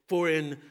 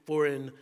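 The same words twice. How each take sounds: The two takes are said the same way.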